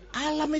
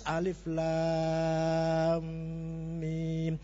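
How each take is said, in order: First: It is said as one short word. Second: It is said as three lengthened letter names. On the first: The speaker calls it wrong. "kalau nggak ada ilmu tajwid, alif lam mim saya baca alam ... Tapi salah" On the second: The speaker calls it right. "Itu bacanya harus alif lam mim ... kudu dawa"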